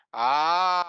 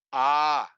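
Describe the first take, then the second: First: "A" held for three beats, louder; extra-long pluta a. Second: "A" held for two beats, louder; long a. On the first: Demonstrating three matras, the pluta A stretched out. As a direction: draw the A out as a pluta vowel. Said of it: "three matras". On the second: Showing students two matras, a long held A. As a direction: stretch the A to double length. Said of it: "two matras". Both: Shown as a demonstration.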